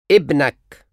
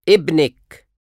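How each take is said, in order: First: ابنك said ebnak, ending in -ak; masculine you form. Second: ابنك said ebnek, ending in -ek; feminine you form. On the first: Teacher drills the masculine form of your son. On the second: Teacher drills the feminine form of your son. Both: Shown as a demonstration.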